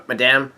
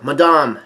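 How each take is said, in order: First: "Madame" with a flat a, like English madam; alternative pronunciation. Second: "Madame" with a broad ah in the second syllable; alternative pronunciation. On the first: Shown as a demonstration. Narrator correcting himself, "Madame" said MAD-am. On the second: Retold or imitated. Two men crying out to a lady, "Madame" said muh-DAHM. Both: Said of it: "Or, M-, Madame".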